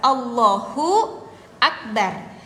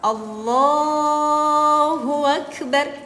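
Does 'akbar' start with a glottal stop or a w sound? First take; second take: glottal stop; w sound. First: Akbar starts with a glottal stop. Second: Akbar starts with a w sound. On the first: The speaker calls it right. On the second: The speaker calls it wrong.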